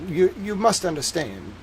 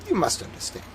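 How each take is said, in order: First: It is spoken with a Southern-sounding accent. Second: It is spoken with an upper-class British accent. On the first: The speaker calls it wrong. "that's too southern" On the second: The speaker calls it right. "Dickensian British, very upper class"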